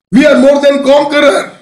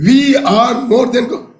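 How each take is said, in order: First: Higher, louder, proclaimed in triumph; triumphant declaration. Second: Said in the usual way. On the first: Retold or imitated. Preacher voicing Paul's triumphant boast to the congregation, proclaimed loudly. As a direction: ring it out like a victory. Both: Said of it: "he says".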